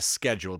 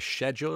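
First: The word does not begin with 'sh'. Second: The word begins with a 'sh' sound. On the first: The speaker calls it wrong. "I wouldn't be a schedule person" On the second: The speaker calls it right. "I like a schedule, a garden shed"

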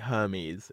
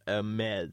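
First: The word begins with a pronounced H sound. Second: The word begins with a silent H. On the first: The speaker calls it wrong. "at least you didn't say Hermes instead of" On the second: The speaker calls it right. "instead of Hermes"

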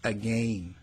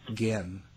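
First: The first vowel is a full 'a' sound. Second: The first vowel is weak and reduced. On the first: This is how Canadians say it. "Canadians say again... They pronounce the A and everything" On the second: This is how non-Canadians say it. "it's not again"

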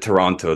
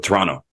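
First: All three syllables of the name are pronounced. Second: The name is clipped into a shorter form. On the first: "nobody pronounces it Toronto" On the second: "They go Toronto. It's just a shorter name"

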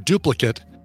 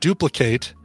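First: It is pronounced as the noun form. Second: It is pronounced as the verb form. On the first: It names a copy of something. "whether it's a verb or a noun" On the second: It names the action of copying. "whether it's a verb or a noun"

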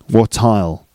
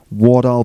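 First: The t in 'what' sounds like a clear t. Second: The t in 'what' sounds like a soft d. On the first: "I could say" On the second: "My T there sounds a bit like a D"

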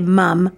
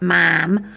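First: The word is said with an Australian vowel. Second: The word is said with an American vowel. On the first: The speaker calls it right. "She's from Australia, so you have to say mom" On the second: The speaker calls it wrong. "not mom"

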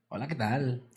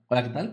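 First: It is said in a northern Mexican accent. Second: It is said in a neutral, normal accent.

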